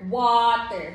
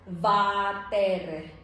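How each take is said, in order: First: The word begins with a rounded w sound. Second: The word begins with a buzzing v sound. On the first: The speaker calls it right. "not water" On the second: The speaker calls it wrong. "they will read it as what? Vater"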